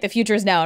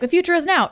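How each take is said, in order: First: It is said in a gloomy, dreading tone. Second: It is said in a cheerful, upbeat tone. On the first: Progress is a threat. "the future is now and we're totally screwed" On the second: Progress is exciting. "you could say it optimistically"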